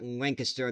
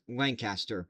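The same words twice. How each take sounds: First: It is said the way Pennsylvanians say it. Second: It is said the way Ohio locals might. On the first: This is how people in Pennsylvania say it. "in Pennsylvania, we call it Lancaster. That's the correct way to say it" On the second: This is how people in Ohio may say it. "or do you guys call it Lanc Lancaster?"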